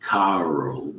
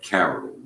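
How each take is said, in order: First: Carol with the first vowel drawn out; wrong pronunciation. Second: Said in the usual way. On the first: Shown as a demonstration. Correcting a housemate's name, Carol said the wrong way, first vowel long. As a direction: stretch the first syllable of Carol as the wrong version. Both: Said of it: "not Carol, but Carol".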